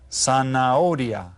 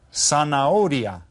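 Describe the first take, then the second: No difference in how they are said.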